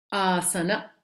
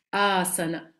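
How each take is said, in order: Both takes have the same delivery.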